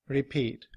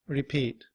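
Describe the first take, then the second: The two takes are said the same way.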